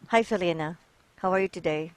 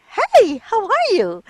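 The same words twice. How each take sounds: First: Flat, lifeless greeting with no energy; monotone. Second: Much higher and louder, slow bright greeting; excited. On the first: Teacher showing a student a monotone greeting. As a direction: say it dull and unvaried, like you don't care. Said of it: "So that's being monotone". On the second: Teacher demonstrating excitement to a student. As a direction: burst out with delight at seeing them. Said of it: "Showing excitement". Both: Shown as a demonstration.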